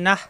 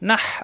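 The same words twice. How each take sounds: First: The final h is a light breathy sound. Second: The final h is pressed from the throat. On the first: The speaker calls it wrong. "তাহলে কিন্তু গোল হা হয়ে যাবে" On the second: The speaker calls it right. "হা কণ্ঠনালীর মাঝখানে চাপ দিয়ে"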